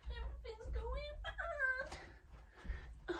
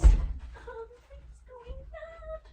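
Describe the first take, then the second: First: High, slow, soft fake crying; mock sobbing. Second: High, slow, loud mock wail; mock despair. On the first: Vlogger losing something, soft high mock crying. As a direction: whimper it high and slow, pretend weeping. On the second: Vlogger losing something, high slow mock wail.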